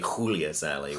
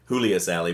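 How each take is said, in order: First: The name starts with a harsh kh sound. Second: The name starts with a soft h sound. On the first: The speaker calls it right. "I guess it's actually" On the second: The speaker calls it wrong. "we've been saying"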